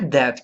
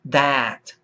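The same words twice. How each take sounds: First: The vowel is a Portuguese-style open e. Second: The vowel is a British English a sound. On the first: "Não é é do português" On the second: "O inglês mais voltado ao inglês britânico"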